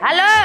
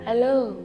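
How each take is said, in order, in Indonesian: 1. Diucapkan keras, dengan suara tinggi seperti berteriak. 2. Diucapkan pelan, dengan volume biasa. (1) "Jadi harus kayak" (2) "Nggak sampai itu"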